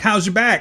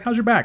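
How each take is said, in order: First: It sounds mocking and sarcastic. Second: It sounds gentle and caring.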